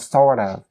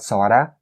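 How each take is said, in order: First: The word 'of' is pronounced fully and separately. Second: The word 'of' is reduced, giving 'sorta'. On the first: The speaker calls it wrong. "You don't say kind of or sort of" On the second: The speaker calls it right. "or sorta"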